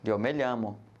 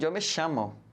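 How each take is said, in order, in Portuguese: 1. É falado com a pronúncia do espanhol europeu. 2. O ll é falado com um som de sh. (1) "para o espanhol da Espanha tradicional" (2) "a variante da Argentina, que é diferente, né? Que é o sh"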